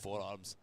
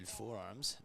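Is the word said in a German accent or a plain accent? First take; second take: German; plain. First: It is said in a deep, German-sounding accent. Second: It is said in the speaker's ordinary accent.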